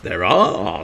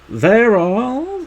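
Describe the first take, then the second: First: It is said in a normal voice. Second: It is said in a put-on voice.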